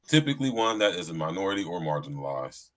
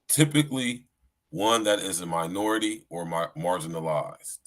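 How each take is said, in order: First: It is read at a normal, quicker pace. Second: It is read at a slower, deliberate pace.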